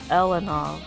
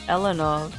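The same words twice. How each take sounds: First: The first vowel sounds like 'eh'. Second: The same.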